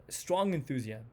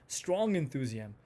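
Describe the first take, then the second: No difference in how they are said.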